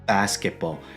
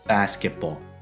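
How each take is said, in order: Both takes have the same delivery.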